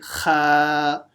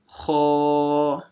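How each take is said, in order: First: It is said light, with an empty mouth. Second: It is said heavy, with a full mouth. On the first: The speaker calls it wrong. "don't say kha, empty mouth" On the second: The speaker calls it right. "Make it full mouth"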